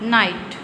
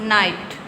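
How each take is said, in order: Both takes have the same delivery.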